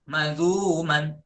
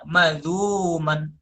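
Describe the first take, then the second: No difference in how they are said.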